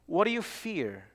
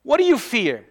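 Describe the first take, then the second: First: Much softer, almost dropped away; hushed question. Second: Said in the usual way. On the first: Acted. Preacher quietly repeats his question to the congregation. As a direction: ask it again quietly, drawing them in.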